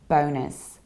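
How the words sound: It is said with an American accent. "in American accent, it's a little bit closer"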